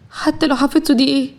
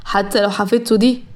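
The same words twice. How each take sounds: First: Questioning wife Zahra. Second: Restrained husband, voice slightly lowered; husband Mahran, trailing off. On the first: Wife prods husband to finish his thought, questioning. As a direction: echo him as a pressing question. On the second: Husband hesitates about his cousin wife, trailing off. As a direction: leave the thought hanging, tune rising. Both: A narrator's reading.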